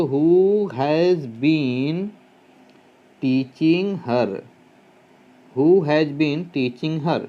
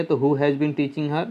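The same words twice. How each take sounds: First: Who has been teaching her, stretched out word by word; very slow dictation. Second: Said in the usual way. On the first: Shown as a demonstration. Teacher dictating the answer to students, very slowly. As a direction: drag each word for writing.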